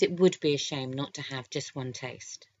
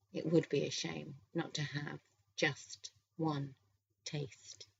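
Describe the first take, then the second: First: Said in the usual way. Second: Slow and softer, pausing before the last words; slow, seductive echo. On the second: A narrator's reading. Greg echoing Lee's words before licking her chin, slow and seductive. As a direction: draw out "just one taste", dropping very soft on "taste".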